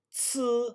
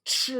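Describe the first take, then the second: First: "C" said as a spat ts; spat Ts sound. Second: "Ch" as the deeper spat sound. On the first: Teacher showing the spat sound before H, Ts. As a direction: spit out "C" as ts. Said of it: "then you spit". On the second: Teacher showing the added H, deeper spat Ch. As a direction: add H to deepen "Ch". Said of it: "when I added the H". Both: Shown as a demonstration.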